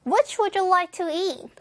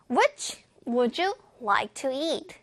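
First: Higher, linked-up model question with no breaks; joined together. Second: Slow, with breaks after "Which" and "would you"; careful, broken-up model reading; chunk by chunk. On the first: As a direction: run "Which would you like to eat" as one phrase. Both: Shown as a demonstration. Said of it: "붙여볼게요".

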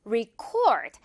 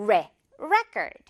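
First: Record with 'ri' and stress on the second syllable, slower; reCORD, light 'ri' first; verb stress. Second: Record with stress on the first syllable 're', said slowly; REcord, 're' as in 'red', drawn out; noun stress. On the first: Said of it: "이렇게 리 발음으로 바뀌거든요". ('리'로 시작하고 둘째 음절에 강세를 준 동사 record) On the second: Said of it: "선생님이 계속 레라고 표기를 하고 있어요". (첫 음절 '레'에 강세를 둔 명사 record) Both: Shown as a demonstration.

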